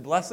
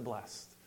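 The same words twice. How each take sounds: First: "blessed" as two syllables, BLESS-id. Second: "blessed" as one syllable, blest. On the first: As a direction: sound the ending of "blessed" as its own syllable. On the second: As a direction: end "blessed" on a t, no second syllable. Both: Shown as a demonstration. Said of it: "How do you pronounce that?".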